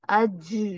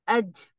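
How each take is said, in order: First: The final j sound is prolonged and keeps flowing. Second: The final j sound stops abruptly without continuing. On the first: The speaker calls it wrong. "आप चला देते हो तिलावत के दौरान वो ... ये गलत है" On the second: The speaker calls it right. "आवाज क्या हो रही है, स्टक हो रही है अंदर"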